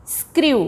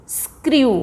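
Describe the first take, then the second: No difference in how they are said.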